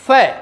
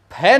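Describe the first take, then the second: First: फै with an F sound; फै as F, not puffed P; correct pronunciation. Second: फै with a puffed P sound; फै with lips closed then puffed; wrong pronunciation. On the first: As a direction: say फै with teeth-on-lip F. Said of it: "क्या बोलना है?". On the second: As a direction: say फै as aspirated P, not F. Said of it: "फै नहीं बोलना है". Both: Shown as a demonstration.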